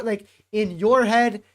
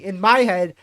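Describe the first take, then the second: First: Said in the usual way. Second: "my" hit hard and loud; stress on MY. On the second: Real, not acted. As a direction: punch the word "my" as a correction. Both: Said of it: "or excuse me".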